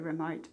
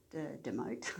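First: "remote" said properly with a clear R; "remote", set right after the joke; corrected word. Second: "demote" said with a D in place of the R; deliberately mangle "demote" as a joke; "demote", a playful wrong version of remote; joking misreading. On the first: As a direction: firmly correct yourself on "remote". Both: Shown as a demonstration. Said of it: "no, we call it the remote".

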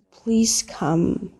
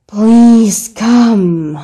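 First: Said in the usual way. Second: Loud, drawn-out pleading; raised-voice plea. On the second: Acted. Caller pleading with someone who can't hear, raised voice. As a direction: say it louder, stretching both words. Repeats louder to be heard.

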